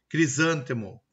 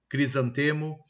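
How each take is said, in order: First: "crisântemo" stressed on SÂN; "crisântemo" with the beat on sân; antepenultimate stress. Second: "crisantemo" stressed on TE; "crisantemo" with the beat on te; penultimate stress. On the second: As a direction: say "crisantemo" as "cri-san-TE-mo". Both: Shown as a demonstration. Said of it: "Ele oscila".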